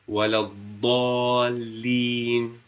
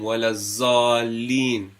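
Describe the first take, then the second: First: The letter sounds like a heavy emphatic d. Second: The letter sounds like a z or th. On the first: The speaker calls it right. "Remember, this is ضاد" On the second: The speaker calls it wrong. "A lot of times we've heard that people recite it as"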